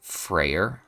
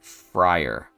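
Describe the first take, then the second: First: The first syllable sounds like 'fray'. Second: The first syllable sounds like 'fry'. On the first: "But I think it might be Frayer" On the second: "I've always just said, like, fry, like French fry, and then er"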